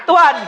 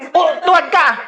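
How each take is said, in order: First: Louder, sharper repeat of tuwad; shouted command. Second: Said in the usual way. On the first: Shown as a demonstration. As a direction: bark the word tuwad out loud and high.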